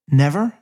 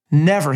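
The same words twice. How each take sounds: First: A questioning Never? that rises, a touch incredulous; slight disbelief. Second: A louder, falling Never, flat and final; firm repeat. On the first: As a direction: ask Never? as if you can't quite believe it. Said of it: "with the slightest touch of disbelief in his voice". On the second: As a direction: shut the question down with Never. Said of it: "he repeated". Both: A narrator's reading.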